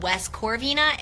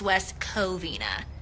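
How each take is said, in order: First: The name has an r sound after 'o'. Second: The name has no r sound after 'o'. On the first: The speaker calls it wrong. "it's not West Corvina" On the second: The speaker calls it right. "it's West Covina"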